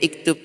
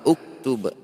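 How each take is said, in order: First: The word begins with the vowel i. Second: The word begins with the vowel u. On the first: The speaker calls it wrong. "Tidak boleh juga iktub" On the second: The speaker calls it right. "huruf ketiganya domah maka uktub"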